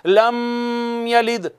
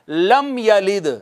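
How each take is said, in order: First: The voice stops and holds on the m sound. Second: The m is touched briefly and flows straight on. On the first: The speaker calls it wrong. "यूं नहीं पढ़ा जाएगा, यह गलत है" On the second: The speaker calls it right. "रुकेंगे नहीं, मीम पर टच करेंगे आगे गुजर जाएंगे"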